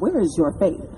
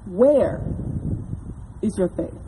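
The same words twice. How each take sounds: First: It sounds accusing and judgmental. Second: It sounds like a gentle, sincere question.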